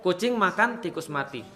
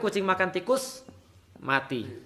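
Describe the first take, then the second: First: There is a pause after 'makan'. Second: There is a pause after 'tikus'.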